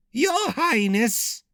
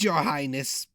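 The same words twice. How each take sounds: First: High whiny servant on verge of tears; much higher, whining plea; whiny cracked voice. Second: Croaking handmaiden, queasy; a hint of a croaking maid. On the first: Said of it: "had a whiny, cracked voice". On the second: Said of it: "had a croaking voice". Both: A narrator's reading.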